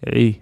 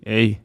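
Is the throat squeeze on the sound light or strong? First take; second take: light; light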